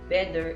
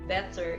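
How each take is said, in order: First: The middle consonant sounds like a d. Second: The middle consonant is a clear t. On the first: The speaker calls it wrong. "D for T" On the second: The speaker calls it right. "the correct"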